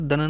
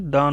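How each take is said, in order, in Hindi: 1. स्वर ह्रस्व है। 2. स्वर दीर्घ है। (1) "दन नहीं होना चाहिए" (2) "यहाँ पे दान होना चाहिए"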